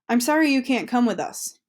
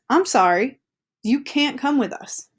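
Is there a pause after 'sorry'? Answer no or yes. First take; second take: no; yes. First: It flows without a pause after sorry. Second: There is a pause after sorry. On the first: "Like, oh man, I'm really sorry too" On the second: "This one says"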